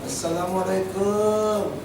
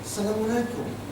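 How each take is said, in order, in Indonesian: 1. Vokal sebelum 'alaikum' dibaca panjang. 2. Vokal sebelum 'alaikum' dibaca pendek. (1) "salah itu" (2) "Hukumnya jangan panjang"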